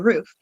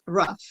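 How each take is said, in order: First: The vowel is a long oo sound. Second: The vowel is a short uh sound. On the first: This is how people in Illinois say it. "we here in Illinois would say roof" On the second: This is how the speaker's mother says it. "my mom says rough"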